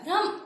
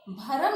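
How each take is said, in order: First: भ्रम said as one syllable, "bhram"; correct joined cluster. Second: भ्रम said as "bha-ram", in two syllables; wrong extra vowel. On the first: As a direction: run bh straight into r in भ्रम. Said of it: "कैसे बोलना है?". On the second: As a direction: break the cluster in भ्रम with an "a" after bh. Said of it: "भ्रम नहीं बोलना है". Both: Shown as a demonstration.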